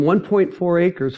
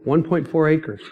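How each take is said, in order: First: Slower, with "point" leaned on and falling; stress on point. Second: Said in the usual way. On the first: Shown as a demonstration. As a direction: spell out "one point four acres" slowly, weighting "point". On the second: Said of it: "On one point four acres".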